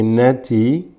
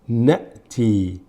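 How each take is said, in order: First: The word flows through without any break. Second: A short glottal catch splits the word. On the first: This follows another reading tradition. "in some qira'at they say nati without a pause" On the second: This follows the reading being used here. "Just a pause without breathing"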